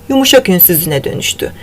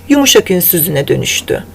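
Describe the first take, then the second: Both takes have the same delivery.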